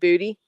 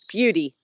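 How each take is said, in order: First: It is said without a y sound: 'boo-tee'. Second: It is said with a y sound: 'byoo-tee'. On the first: The speaker calls it wrong. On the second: The speaker calls it right.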